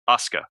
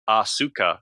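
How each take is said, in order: First: The u after the s is dropped. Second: The u after the s is fully voiced. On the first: The speaker calls it right. "they say Asuka. They completely drop the uh, the U in the center" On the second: The speaker calls it wrong. "they don't say Asuka"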